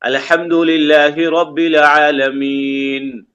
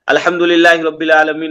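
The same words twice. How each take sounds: First: It is recited slowly, then a stop. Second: It is recited quickly without stopping. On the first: The speaker calls it right. "हमको रुक कर पढ़ना है।" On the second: The speaker calls it wrong. "ऐसे नहीं पढ़ना है हमको।"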